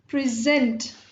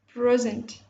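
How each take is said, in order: First: The stress is on the second syllable. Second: The stress is on the first syllable. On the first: It is a verb. "So present is a verb" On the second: It is a noun. "We are stressing upon the first part"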